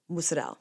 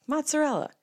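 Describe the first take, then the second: First: Mozzarella clipped to MOOT-sa-dell, vowel swallowed at the end; New Jersey Italian mozzarella. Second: Mozzarella said as written, mot-sa-REL-la, a high sing-song reading; standard Italian mozzarella. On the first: Showing how her Jersey family says Mozzarella. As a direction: drop the ending so Mozzarella becomes moot-sa-dell. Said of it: "That's what we say". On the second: Showing friends the textbook Mozzarella. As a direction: lay out Mozzarella syllable by syllable. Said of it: "what it phonetically sounds like". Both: Shown as a demonstration.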